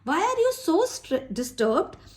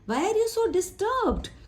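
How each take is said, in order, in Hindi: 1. Stress 'so' शब्द पर पड़ता है। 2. स्ट्रेस 'disturbed' शब्द पर पड़ता है। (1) "अगर हम सो के लिए करेंगे तो इसका मतलब होगा बहुत ज्यादा" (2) "डिस्टर्ब के ऊपर देना"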